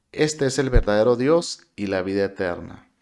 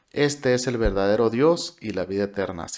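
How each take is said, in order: No difference in how they are said.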